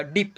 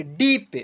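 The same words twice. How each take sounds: First: डीप with a short, clipped i. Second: डीप with a long, drawn-out ee; long vowel. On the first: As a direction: cut the vowel in डीप short, softer. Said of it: "थोड़ा कम sound होगा". (डीप में छोटी इ, कम खींचकर) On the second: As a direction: stretch the vowel in डीप, pitched up. First take, corrected to shorter after. (डीप में लंबी ई) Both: Shown as a demonstration.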